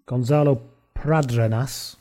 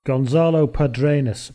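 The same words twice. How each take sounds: First: "Pradenas" said slowly with the r after the p, pra-DE-nas; careful second try, "Gonzalo Pradenas" with the r moved up front; corrected surname. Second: "Padrenas" said slowly with the r after the a, pa-DRE-nas; first hesitant go, "Gonzalo Padrenas" with the r misplaced; wrong surname. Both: Real, not acted. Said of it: "I'll try that again".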